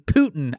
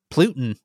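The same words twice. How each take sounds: First: Said in the usual way. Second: Putin misspoken with an extra L, "PLOO-tin"; tongue-tied slip. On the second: Real, not acted. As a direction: stumble on Putin, slipping an L in after the P. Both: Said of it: "I can't speak".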